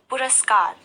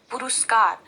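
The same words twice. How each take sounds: First: पुरस्कार said cleanly as पु-रस-कार with no vowel after र; teacher giving the right form पुरस्कार, र with no ऊ; correct pronunciation. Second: पुरस्कार said as "पुरुस्कार" with an extra ऊ sound after र; the common mistake पुरुस्कार, with u after र; wrong pronunciation. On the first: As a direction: say पुरस्कार correctly, short र before स. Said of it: "सही उच्चारण है". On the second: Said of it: "जो गलत है". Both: Shown as a demonstration.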